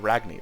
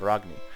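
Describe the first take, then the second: First: The name is said with an English accent. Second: The name is said with a Nordic accent. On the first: The speaker calls it wrong. "the Nords aren't going to call her" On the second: The speaker calls it right. "They're going to call her"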